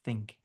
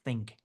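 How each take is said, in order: First: The word begins with a th sound, tongue out. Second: The same.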